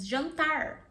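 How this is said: It is said in an American English accent. "Or you can have the American accent"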